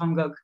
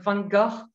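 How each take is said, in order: First: The name is said with a French accent. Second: The name is said with a Dutch sound. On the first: "you can say it with a French accent" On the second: "something more um, Dutch sound"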